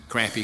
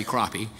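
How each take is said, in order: First: Crappy with the "a" of cat; regional pronunciation. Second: Crappie with an "ah" vowel; regional pronunciation. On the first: Preacher comparing regional fish names, crappy as "KRAP-ee". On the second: Preacher comparing regional fish names, crappie as "KROP-ee". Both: Shown as a demonstration. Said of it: "depending on the part of the country".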